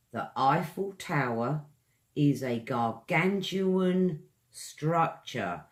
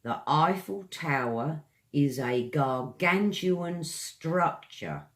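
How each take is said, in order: First: Slow, gargantuan stressed; slower repeat. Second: Eiffel Tower sentence read clearly, stress on gargantuan; example read. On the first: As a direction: say it again slowly for the class. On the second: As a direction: read it as a model. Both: Shown as a demonstration. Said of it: "Example sentence".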